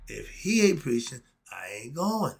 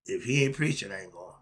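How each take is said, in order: First: "If he ain't preaching, I ain't going" with firm, fuller weight to the end; emphatic repeat. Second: Said in the usual way. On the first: Real, not acted. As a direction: land hard on HE and hold GOING strong.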